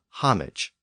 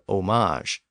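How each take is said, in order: First: The word is pronounced with an anglicized English sound. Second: The word is pronounced with a French-like sound.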